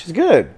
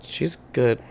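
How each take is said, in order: First: A louder, laughing "She's good.". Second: A pointed, meaningful "She's good."; loaded answer. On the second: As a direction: say "She's good." with a knowing edge. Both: Real, not acted. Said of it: "Why do you say it like that?".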